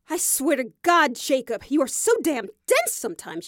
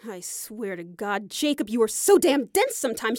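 First: The line is delivered with forceful energy. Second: The line is delivered with mild energy.

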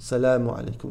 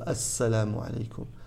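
First: The greeting starts directly with 'salamu'. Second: The greeting starts with an 'as' sound. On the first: The speaker calls it wrong. "he says salamu alaykum" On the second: The speaker calls it right. "instead of assalamu alaykum"

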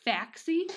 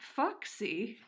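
First: The first vowel sounds like the vowel in 'fax'. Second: The first vowel sounds like the vowel in 'fox'. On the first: The speaker calls it wrong. "I would have just been like" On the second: The speaker calls it right. "I'm really glad that I looked up how to pronounce it"

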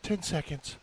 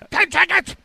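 First: The phrase is said at a normal volume. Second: The phrase is shouted loudly. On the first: The speaker calls it right. "she didn't really say it like that. She said" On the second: The speaker calls it wrong. "Yelling at us. She's like"

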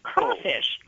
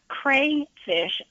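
First: The first syllable sounds like 'craw'. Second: The first syllable sounds like 'cray'. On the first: "most people in... crayfish territory pronounce it crawfish" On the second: "It's spelled crayfish"

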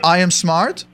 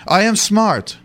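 First: It is said as a question, rising. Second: It is said as a firm statement, falling.

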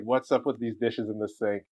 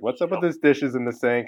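First: It is said calmly, at a lower pitch. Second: It is said agitated, high and loud.

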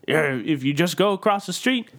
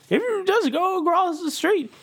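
First: It is said in a plain, non-Orso voice. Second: It is said in Orso's put-on character voice.

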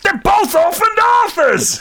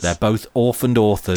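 First: It is said in a put-on character voice. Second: It is said in the speaker's ordinary voice. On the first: The speaker calls it right. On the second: The speaker calls it wrong.

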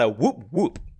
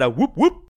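First: It is said slower, with less oomph. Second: It is said fast, with lots of oomph.

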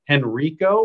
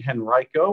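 First: The name is said the outsider way. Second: The name is said the local way. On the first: The speaker calls it wrong. "which is what sometimes people say if they've never been here before" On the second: The speaker calls it right. "which is how you pronounce it"

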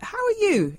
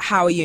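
First: It sounds warm and sincere. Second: It sounds casual and offhand.

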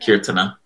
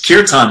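First: A soft vowel follows the final n. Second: The word ends on the n sound. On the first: "almost like a silent A, like kirtana" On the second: "There is a A at the end of kirtan"

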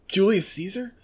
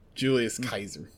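First: Caesar begins with an S sound. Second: Caesar begins with a K sound.

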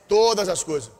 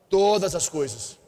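First: It is said loudly and strongly. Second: It is said at normal volume.

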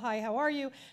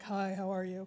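First: It is said in a neutral tone. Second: It is said in a seductive tone.

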